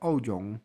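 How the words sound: The surname is pronounced the Cantonese way. "Kanton menyebutnya sebagai"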